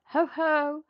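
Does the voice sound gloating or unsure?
gloating. It sounds gloating and confident.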